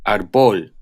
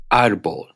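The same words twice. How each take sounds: First: Árbol wrongly said ar-BOL; misplaced stress. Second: Árbol said AR-bol; acute-marked stress. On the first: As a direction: stress the last syllable of árbol. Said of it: "If they didn't have the acute". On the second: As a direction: stress the first syllable of Árbol. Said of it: "Here are some examples". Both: Shown as a demonstration.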